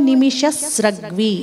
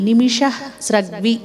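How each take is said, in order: No difference in how they are said.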